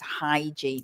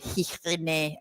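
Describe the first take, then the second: First: The word is pronounced in the standard English way. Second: The word is pronounced in an unusual, foreign way. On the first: The speaker calls it right. "hygiene is the pronunciation" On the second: The speaker calls it wrong. "They go hygiene and and all sorts of uh, strange"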